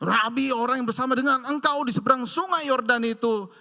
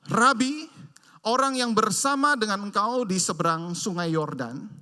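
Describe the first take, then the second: First: It is said in a harsh, angry tone. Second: It is read in a calm, plain tone.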